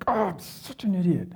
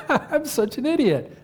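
First: Acted anger, pitched higher; angry self-berating. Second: High-pitched, laughing put-on lightness; mock cheerful self-insult. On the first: Preacher showing how he really talks to himself, angrily berating. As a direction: scold yourself in frustration. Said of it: "It's always angry". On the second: Preacher showing how he never sounds when angry, laughingly light. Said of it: "I never say when I'm really angry, like". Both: Shown as a demonstration.

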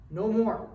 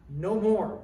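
First: Loud "No more" again, falling hard on "more"; loud echo of "No more" to the congregation; repeated firm declaration. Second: Loud, firm "No more" with the weight on "more"; preacher's loud renunciation, "No more"; firm declaration. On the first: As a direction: hammer the renunciation home with "No more". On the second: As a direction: stamp it out, "No more". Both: Acted. Declaring an end to family sin.

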